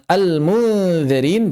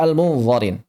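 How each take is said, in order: First: Slow "al-munzirin" with a light dz; "al-munzirin" drawn out, tongue-tip dhal; thin dhal. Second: "al-munzarin" with a thick, dark z; mistaken heavy zha. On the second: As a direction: darken the vowel after z in "al-munzarin". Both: Shown as a demonstration. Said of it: "jangan dibaca".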